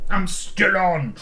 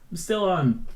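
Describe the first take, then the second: First: "still on" stretched out loud and high; drawn-out emphasis. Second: Said in the usual way. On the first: Pretend. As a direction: draw out "I'm still on" slowly, loud and hammed up. Hammed-up repeat of the same line.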